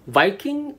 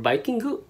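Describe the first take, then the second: First: It ends on the consonant sound ng. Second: It ends with an added vowel, as vi-kin-gu.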